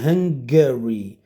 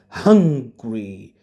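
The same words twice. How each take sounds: First: "Hungary" as three syllables, HUNG-guh-ree; correct pronunciation. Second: "hungry" as two syllables, HUNG-gree; contrasting pronunciation. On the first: Teacher tells it apart from needing food, three-syllable "Hungary". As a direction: keep the little vowel in "Hungary" between g and r. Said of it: "But this is Hungary". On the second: Teacher shows the big difference from the country, two-syllable "hungry". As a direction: open "uh" in "hungry", then straight into "gree". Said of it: "A big difference". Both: Shown as a demonstration.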